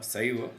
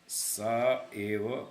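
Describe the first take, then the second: First: One joined word with the vowels merged. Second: Two separate words with a break between vowels. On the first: The speaker calls it right. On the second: The speaker calls it wrong.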